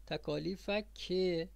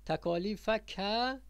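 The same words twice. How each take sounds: First: تکالیف که said "takālīfaki", slowly, ending in an i/e; kasra ending. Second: تکالیف که said "takālīfaka", slowly, ending in an a; fatha ending. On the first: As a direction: finish تکالیف که on a drawn-out "ke". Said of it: "این فرق بین پسر و دختر". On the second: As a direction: finish تکالیف که on a drawn-out "ka". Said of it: "پس اینا فرق هست". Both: Shown as a demonstration.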